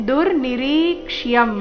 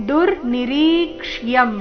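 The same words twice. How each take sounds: No difference in how they are said.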